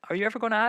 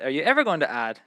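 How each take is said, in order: First: The question sounds relaxed and casual. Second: The question sounds impatient and aggressive. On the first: The asker is simply curious about future plans. "Maybe it was more like" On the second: The asker is annoyed it has not been done yet. "I don't know if you mean it like this"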